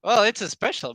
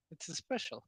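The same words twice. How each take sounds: First: Loud. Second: Quiet. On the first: Hawking the special price. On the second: Repeating softly. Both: Real, not acted.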